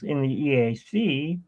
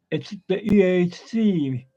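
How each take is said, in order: First: Said in the usual way. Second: Higher Australian-accented turtle, E A C stretched out; Crush. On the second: Shown as a demonstration. Trying Crush's catchphrase, Australian accent on "E A C". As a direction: attempt a down-under accent on "E A C". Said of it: "accent from down under".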